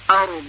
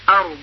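First: The word ends with a clear final consonant. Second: The same.

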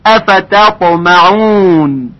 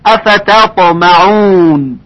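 No difference in how they are said.

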